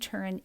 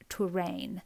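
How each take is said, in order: First: The name is said the American way. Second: The name is said the local regional way. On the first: "we pronounce it in the U S as Turin" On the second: "in that region they would say it Touraine"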